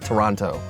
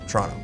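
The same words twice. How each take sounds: First: All three syllables are clearly pronounced. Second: The syllables are shortened and run together. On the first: It is said this way to non-locals. "I will enunciate Toronto, all three syllables" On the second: It is how locals say it. "among locals, it's Toronto"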